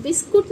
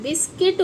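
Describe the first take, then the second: First: बिस्कुट with "kut" as second syllable; wrong pronunciation. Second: बिस्किट with "kit" as second syllable; correct pronunciation. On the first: Teacher rejecting the way many say biscuit, mispronounced. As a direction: say बिस्कुट, short u before the t. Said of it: "बिस्कुट नहीं". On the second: Teacher telling children what biscuit should be, correct pronunciation. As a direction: say बिस्किट, short i before the t. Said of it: "बिस्किट होता है". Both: Shown as a demonstration.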